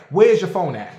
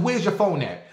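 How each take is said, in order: First: Louder, hard demand. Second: Said in the usual way. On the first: Retold or imitated. To the accusing man, loud demand. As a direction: bark the question at him.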